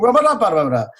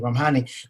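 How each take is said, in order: First: The surname is said as Ramada. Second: The surname is said as Ramhani. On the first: The speaker calls it wrong. "please welcome Paul Ramada" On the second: The speaker calls it right. "saying it over and over and over"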